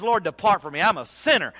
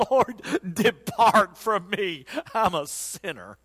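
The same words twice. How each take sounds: First: Said in the usual way. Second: Slow, lightly voiced humble plea; kneeling Peter begging, slow and hushed; humbled Peter. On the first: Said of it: "and he says". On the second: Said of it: "Peter falls on his knees and said".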